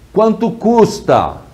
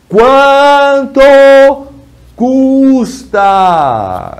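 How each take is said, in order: First: It is said at a normal volume. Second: It is said much louder, almost shouting.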